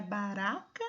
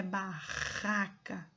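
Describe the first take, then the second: First: BARACA with a light tapped R; single-R sound. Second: BARRACA slowly, with a throaty RR; double-R sound. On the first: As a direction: flick the R once in baraca. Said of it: "com um R". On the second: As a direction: lean on the guttural R in barraca. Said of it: "com dois R's". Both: Shown as a demonstration.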